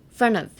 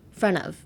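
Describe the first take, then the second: First: The word 'of' is reduced to a short 'a'. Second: The same.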